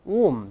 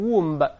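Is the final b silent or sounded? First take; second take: silent; sounded. First: The final b is silent. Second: The final b is sounded. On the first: The speaker calls it right. "读成womb" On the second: The speaker calls it wrong. "咱们不读成womb"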